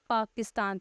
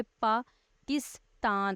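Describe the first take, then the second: First: Said in the usual way. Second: Pakistan broken into पा, किस, तान with clear pauses; split into syllables. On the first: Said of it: "जैसे मैं लफ्ज़ बोल देती हूँ". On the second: Shown as a demonstration. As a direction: say Pakistan slowly in three separate beats. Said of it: "जब हम parts divide करें".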